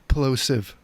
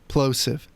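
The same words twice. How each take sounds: First: The P sounds still pop with noticeable bursts. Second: The P sounds pop with strong bursts. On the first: "It's bad" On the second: "You hear how bad the plosives are on this mic?"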